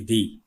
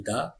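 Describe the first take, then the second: First: The word ends in a long 'ee' vowel. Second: The word ends in a short 'uh' vowel. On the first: The next word begins with a vowel. "when you will find vowel, then it will be the" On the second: The next word begins with a consonant. "when we have found consonant, then it will be da"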